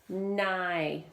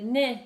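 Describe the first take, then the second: First: Nigh said with a long i, like the word nigh; Nigh, drawing out the long vowel at the end; long vowel reading. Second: Nih with a short clipped i, higher and louder; nih, cutting the vowel short as a mistake; wrong short vowel. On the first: Teacher models the correct long-vowel reading for the class. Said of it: "Remember, vowels at the end". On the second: Teacher shows students the wrong short-vowel reading to avoid. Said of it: "If you said "nih," you're forgetting". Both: Shown as a demonstration.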